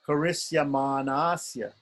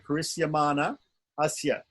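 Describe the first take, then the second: First: The two vowels merge into one long vowel. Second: The two vowel sounds are kept apart. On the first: "But mostly people say ... make it into a long A" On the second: "he's put here"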